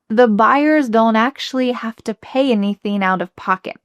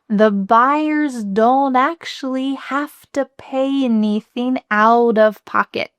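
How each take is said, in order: First: The sentence is spoken at a faster pace. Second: The sentence is spoken at a slower pace.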